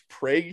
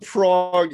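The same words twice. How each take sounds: First: It uses the local Nebraska pronunciation of the name. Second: It uses the usual pronunciation of the European city. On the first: It names the small town in Nebraska. "which I think is pronounced Prague here" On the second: It names the capital of the Czech Republic. "I'm talking about Prague in the Czech Republic"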